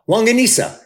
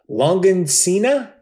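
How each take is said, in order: First: The ending is a plain 'sa' sound. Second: The ending sounds like the name Cena. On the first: The speaker calls it right. "Not John Cena" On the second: The speaker calls it wrong. "That's like John Cena"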